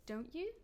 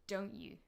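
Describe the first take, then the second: First: "Don't you" swept up at the end; rising tone. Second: "Don't you" stepping down, certain; falling tone. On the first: Teacher unsure of the answer, rising tone. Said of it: "I'm using a rising intonation". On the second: Teacher confirming what is already known, falling tone. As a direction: drop "Don't you?" downward as a rhetorical tag. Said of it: "falling tone". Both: Shown as a demonstration.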